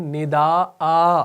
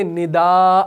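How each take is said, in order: First: "ندا آ" with a long drawn aa at the end; the right waqf "ندا آ" with long alif; correct pausal form. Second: "ندا" cut short with no added alif; the incorrect "ندا" without the long aa; wrong pausal form. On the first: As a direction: stretch the final "آ" in "ندا آ" slowly. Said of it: "ہم کرتے ہیں". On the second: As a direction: say "ندا" clipped, ending on the plain vowel. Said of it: "ہم نہیں کرتے". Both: Shown as a demonstration.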